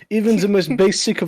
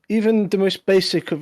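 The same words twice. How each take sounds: First: It is spoken in a put-on French accent. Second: It is spoken in the speaker's ordinary accent.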